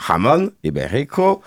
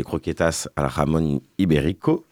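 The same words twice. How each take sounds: First: Slow, higher-pitched, hammed-up Spanish "jamón ibérico"; stretched mock-Spanish accent, pitch swooping up on each word; exaggerated Spanish accent. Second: Lightly Spanish-accented "jamón ibérico", mostly in a usual voice; understated attempt at Spanish pronunciation on "jamón ibérico"; tentative Spanish accent. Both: Shown as a demonstration. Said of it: "Désolé pour mon accent espagnol".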